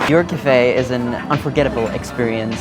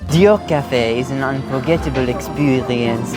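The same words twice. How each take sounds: First: It is spoken in a plain accent. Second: It is spoken with a French accent.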